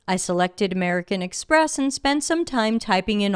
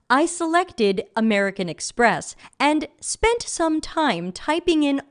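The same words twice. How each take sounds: First: Words are reduced and said casually. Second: Every sound is crisply over-enunciated. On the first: The speaker calls it wrong. "I just read it very casually" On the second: The speaker calls it right. "over enunciating"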